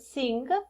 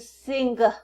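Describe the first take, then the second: First: It ends in a nasal with no g sound. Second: It ends with an audible g after the nasal. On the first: The speaker calls it right. "the word sing" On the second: The speaker calls it wrong. "but not sing"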